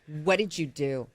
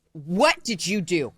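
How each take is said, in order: First: Low-key, wary questioning; acted suspicion, kept understated; suspicious question. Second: Slow, emphatic WHAT; WHAT drawn out, each word spaced in demand; insistent questioning. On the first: Wife in bed to kneeling husband, quietly suspicious. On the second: Retold or imitated. Wife repeating her question to husband, slow and insistent.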